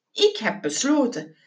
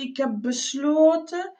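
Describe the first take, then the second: First: Matter-of-fact repeat with a falling end; decided, closed-off delivery; quoting back firmly. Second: Tentative and searching; hesitant answer. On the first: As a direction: state it as a settled decision. Quoting the hesitant answer back firmly. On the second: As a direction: stall mid-decision, letting it hang upward. Hesitant answer, left unfinished. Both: Acted.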